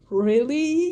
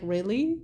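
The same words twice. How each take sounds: First: Higher, louder, disbelieving; exasperated parent. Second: Said in the usual way. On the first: Retold or imitated. Parents staring at their daughter, mock exasperated. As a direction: parents fed up after a night in hospital. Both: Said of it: "parents were just sitting there staring".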